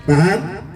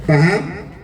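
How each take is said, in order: The two takes are said the same way.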